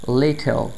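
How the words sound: The t sound is clearly pronounced. "न्यूट्रल accent में"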